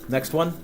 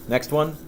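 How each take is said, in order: No difference in how they are said.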